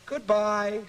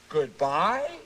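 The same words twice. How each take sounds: First: It is said calmly and nicely, falling. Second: It is said unsure, like a question.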